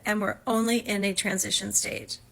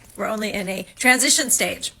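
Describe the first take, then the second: First: It is said at normal volume. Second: It is yelled loudly.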